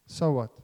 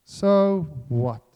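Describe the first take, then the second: First: Said in the usual way. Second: SO WHAT, both words drawn out and loud; slow, forceful "So what", each word weighted; emphatic repeat. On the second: Real, not acted. Preacher dismissing self-righteous boasting to the church, emphatic "So what".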